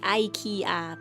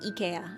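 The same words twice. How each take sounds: First: The name is said with English pronunciation. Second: The name is said with Japanese pronunciation. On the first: "I was expecting it to be like" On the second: "in Japanese it was also"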